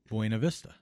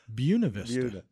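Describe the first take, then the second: First: Buena is said the way outsiders would expect. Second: Buena is said the way the locals say it. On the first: This is how an outsider would guess it. The speaker calls it wrong. "you would think it would be Buena Vista" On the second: This is how people from the town say it. The speaker calls it right. "Do you know how they pronounce it?"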